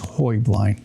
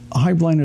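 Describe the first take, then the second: First: Said with the original Bavarian pronunciation. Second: Said the way the family pronounces the name. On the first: The original way of saying the name. "The correct Bavarian pronunciation" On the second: The family's own way of saying the name. "is the family"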